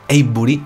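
The name is said with a non-native accent. The speaker calls it wrong. "Y tampoco lo digo muy bien"

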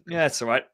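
The tone sounds flat and unenthusiastic. The speaker does not really like the beer. "But if I went, ... that's obviously not a very good inflection"

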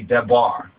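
The middle consonant is a b sound. The speaker calls it right. "If we now repoint it properly, it'll be Debar"

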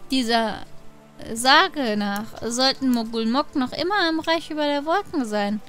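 It is said in a put-on character voice.

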